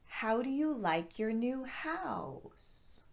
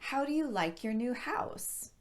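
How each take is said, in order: First: The sentence is spoken at a slower pace. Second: The sentence is spoken at a normal pace.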